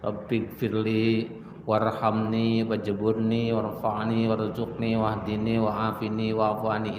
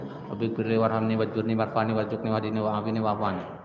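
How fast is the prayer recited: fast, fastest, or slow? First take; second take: slow; fast. First: It is recited calmly and slowly. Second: It is recited at a faster pace. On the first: "Apalagi dibacanya dengan tenang" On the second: "Ada lagi yang lebih cepat dari itu"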